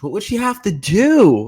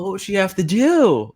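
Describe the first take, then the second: First: It is said with heavy, exaggerated emphasis. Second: It is said with softer, reduced emphasis. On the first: "Like really emphasize it, and then that doesn't sound normal" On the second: "you kind of scale it back"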